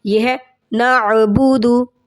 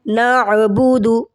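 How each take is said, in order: First: نعبدو said slowly with a clear ain from the throat; correct ain. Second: نعبدو said slowly without the ain sound; wrong pronunciation. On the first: Teacher showing students the correct ain. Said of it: "عین کی آواز ضرور نکالنی ہے". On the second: Teacher showing the common mistake, slowly. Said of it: "عین کی آواز نہیں نکالتے". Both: Shown as a demonstration.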